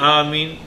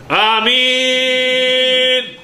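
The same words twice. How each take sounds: First: It is said softly and gently. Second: It is screamed loudly.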